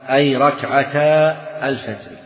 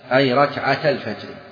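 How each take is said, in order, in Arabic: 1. الحركة قبل 'al-fajr' تُنطق طويلة. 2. الحركة قبل 'al-fajr' تُنطق قصيرة. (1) "اسمعوا عبارة" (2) "الثاني أصح، الثاني لماذا؟ الالتقاء"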